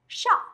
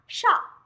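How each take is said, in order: Both takes have the same delivery.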